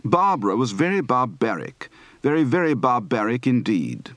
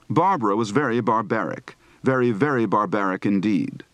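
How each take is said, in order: First: "Barbara" and "barbaric" as BAH-bra, bah-BARR-ic; non-rhotic "Barbara", long ah for "ar"; dropped R. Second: Said in the usual way. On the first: Shown as a demonstration. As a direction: leave out the R before B in "barbaric". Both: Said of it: "Practice for dropping a final R".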